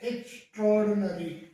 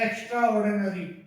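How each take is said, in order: First: 'Extra' is merged into one single word. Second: 'Extra' is said as a separate full word. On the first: The speaker calls it right. "Combined होकर के आता है तो तब ये एक्स्ट्राऑर्डिनरी बोला जाता है" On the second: The speaker calls it wrong. "Commonly एक्स्ट्रा ऑर्डिनरी करके बोला जाता है"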